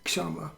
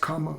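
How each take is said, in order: First: The word begins with a 'ksh' cluster. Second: The word begins with a plain 'k'. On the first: "K S diacritical mark uchi A M A" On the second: "it could be pronounced kama also, in different pronunciations of Sanskrit"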